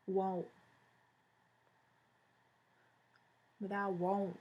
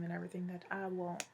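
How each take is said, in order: First: Drawled southern US accent on want. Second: Said in the usual way. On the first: Shown as a demonstration. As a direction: lean into a Southern twang. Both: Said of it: "It's my southern accent".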